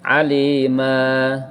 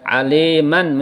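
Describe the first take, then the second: First: The word ends on a long vowel, no n. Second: The word ends with a final n sound. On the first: "menjadi alima" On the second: "Kalau fathah tanwin dibaca aliman"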